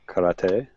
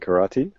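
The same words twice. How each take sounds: First: It is said with a Japanese pronunciation. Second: It is said with an English pronunciation.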